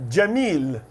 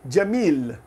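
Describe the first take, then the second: No difference in how they are said.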